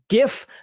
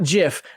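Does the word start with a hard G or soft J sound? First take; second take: hard G; soft J. First: The word starts with a hard G sound. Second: The word starts with a soft J sound. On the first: The speaker calls it right. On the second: The speaker calls it wrong.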